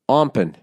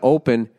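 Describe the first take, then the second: First: The word has an m sound before p. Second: The word has no m sound before p. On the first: The speaker calls it wrong. "O-M-P, O-M-P" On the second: The speaker calls it right. "Instead of open"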